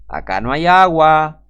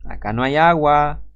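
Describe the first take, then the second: First: "agua" drawn out, slow and loud; loud, stretched-out insistence on "agua"; emphatic repeat. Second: Said in the usual way. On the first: Real, not acted. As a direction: hammer home "acá no hay agua", louder and slower. Louder repeat to drive point home.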